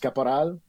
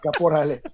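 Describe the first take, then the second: First: The surname is said with a French accent. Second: The surname is said with a Spanish accent. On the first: This is the Quebec French way. "there's the Francophone way, which is Caporal" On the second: This is the mother's way. "if you want to pronounce the full thing like my mom does"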